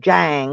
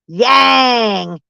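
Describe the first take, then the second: First: The name starts with a J sound. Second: The name starts with a Y sound. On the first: "I'm gonna call you Jang because I think I like it" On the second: "She says it's pronounced Yang"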